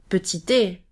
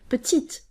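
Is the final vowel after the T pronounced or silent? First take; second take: pronounced; silent. First: A vowel is pronounced after the final T. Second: The word ends on the T, no vowel. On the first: The speaker calls it wrong. "we don't pronounce the I, therefore we don't say petite" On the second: The speaker calls it right. "We say petite"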